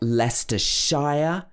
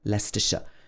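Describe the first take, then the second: First: The ending is said as a full 'shire'. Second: The ending is said as a short 'sh'. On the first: The speaker calls it wrong. "There's not Leicestershire" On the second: The speaker calls it right. "this should be pronounced sh"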